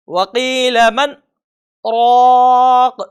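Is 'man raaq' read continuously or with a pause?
paused. It has a brief pause after 'man'. The speaker calls it right. "बल्कि"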